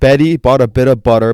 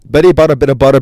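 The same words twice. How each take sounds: First: It is said slowly. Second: It is said fast.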